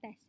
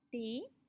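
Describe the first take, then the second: First: It ends with a short 'e' and 'st'. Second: It ends with an 'ay' vowel and no 's'. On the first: The speaker calls it wrong. "bukan test" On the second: The speaker calls it right. "S tidak akan berbunyi"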